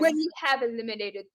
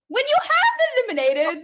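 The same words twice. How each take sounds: First: It is said in a plain American accent. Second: It is said in a put-on British accent. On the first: "I didn't do that in a British accent" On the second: "watch me try to say that in a British accent"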